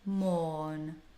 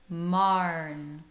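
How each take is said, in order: First: The vowel is a rounded 'or' sound. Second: The vowel is an open 'ar' sound. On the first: "instead of saying morn" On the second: "the vowel does change slightly too into marn"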